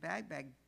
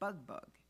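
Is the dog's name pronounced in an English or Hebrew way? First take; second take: English; Hebrew. First: The name is said with English reading vowels. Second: The name is said with Hebrew vowels. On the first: "what you would read" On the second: "the Hebrew pronunciation"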